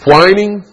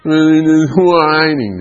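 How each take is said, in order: First: Said in the usual way. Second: WHINING whined high and long drawn-out. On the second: Shown as a demonstration. Acts out the word in a whine.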